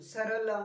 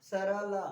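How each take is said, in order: First: सरला said fast, सर run together in one quick beat; quick sarla. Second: सरला with रा pressed hard; stress on रा. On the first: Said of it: "इसी को जल्दी बोल रहे हो". (सरला को झटके से जल्दी बोलना) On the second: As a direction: lean on the रा in सरला. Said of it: "रा पर भी आप जोर दे रहे हो". (सरला में रा पर जोर) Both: Shown as a demonstration.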